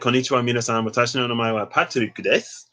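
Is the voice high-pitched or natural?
natural. It is spoken in a natural, lower voice. "I can talk in my own voice"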